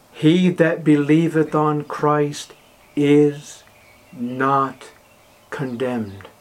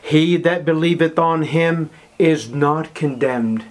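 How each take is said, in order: First: Slow, pausing weight on "is not condemned."; word-by-word emphasis. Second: Said in the usual way. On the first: Shown as a demonstration. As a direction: drop the words one at a time, "not" hanging alone. Verse slowed with pauses for emphasis.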